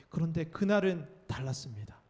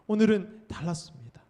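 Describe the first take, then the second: First: Said in the usual way. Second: 오늘은 hit louder on a falling line; 오늘은 said louder to mark this day as different; stress on 오늘은. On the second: Shown as a demonstration. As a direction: land hard on 오늘은, then settle on 달랐습니다.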